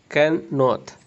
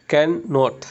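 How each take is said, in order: No difference in how they are said.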